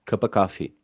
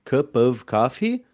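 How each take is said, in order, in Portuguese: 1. A palavra 'of' é rápida e quase apagada. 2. A palavra 'of' é pronunciada completa e clara. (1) "pronunciadas de maneira um pouco mais rápida e quase que a- apagada" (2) "em vez de"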